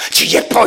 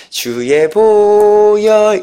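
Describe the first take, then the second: First: Forced, unvoiced strained chant; strained imitation of hymn. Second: Long held, sustained sung note; plain singing. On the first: Speaker mimics student leaders singing the blood hymn, strained and forced. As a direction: squeeze the hymn out with harsh effort. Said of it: "이렇게 해요". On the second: Shown as a demonstration. Teacher shows listeners how hymn normally isn't sung there, plain sustained singing. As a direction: sing it out on one drawn-out tone. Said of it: "이렇게 안 하죠".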